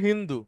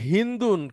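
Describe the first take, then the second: First: The name ends on a vowel, no 'n'. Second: The name ends with a final 'n' sound. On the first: It names a woman. "মেয়ের নাম যদি হয়, তখন শুধু নামটা হবে হিন্দু" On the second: It names a country. "কোনো দেশের নাম হয়, তাহলে সেটা তানবিন নিবে"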